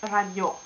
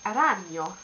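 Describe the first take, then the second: First: Ragno with the final GNO stressed; stress on last syllable. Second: Ragno with RA stressed, second syllable light; stress on first syllable. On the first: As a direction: say ragno wrongly as ra-GNÒ. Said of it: "and not". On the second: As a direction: say ragno as RA-gno. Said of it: "in fact, you say". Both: Shown as a demonstration.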